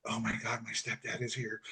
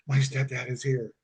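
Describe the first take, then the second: First: Retold hushed whisper, much softer. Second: Said in the usual way. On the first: Cashier whispers into the phone that her stepdad is here, much softer. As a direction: hush it like a secret phone warning. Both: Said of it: "she whispers".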